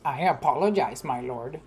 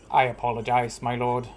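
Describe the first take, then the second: First: Sing-song mocking apology, pitched up on apologize; a soldier mocking his captain's apology; mocking echo. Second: Slightly formal. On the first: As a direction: mimic the words back with a sneer. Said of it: "came a mocking voice". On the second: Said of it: "in a slightly more formal tone". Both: A narrator's reading.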